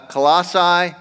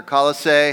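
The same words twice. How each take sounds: First: Colossae stressed on the second syllable, ending like "sigh"; first pronunciation variant. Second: Colossae stressed on the first syllable, ending like "say"; alternative pronunciation. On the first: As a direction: say Colossae as kuh-LAH-sigh. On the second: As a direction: say Colossae as KAH-luh-say. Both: Shown as a demonstration. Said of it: "however you lis-, like to say it".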